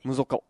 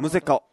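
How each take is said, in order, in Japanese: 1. 2番目の母音は'o'の音です。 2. 2番目の母音は'e'の音です。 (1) "むぞかっていうのもある" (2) "僕たちはむぜかって言うんですよ"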